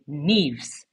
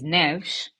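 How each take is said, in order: First: "Neves" said as NEEVZ; mispronounced surname. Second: "Neves" said as nevsh, one syllable; correct pronunciation. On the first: Retold or imitated. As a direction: say "Neves" with a long ee and a z ending. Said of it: "people would pronounce it". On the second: Shown as a demonstration. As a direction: say "Neves" with a short e and a sh ending. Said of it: "The last name is".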